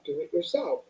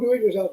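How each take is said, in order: First: It is said warmly and gently. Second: It is said sharply and impatiently. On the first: It is kind encouragement to take action. The speaker calls it right. "say this with love" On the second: It is an annoyed order to stop asking. The speaker calls it wrong. "not the way your mom would say"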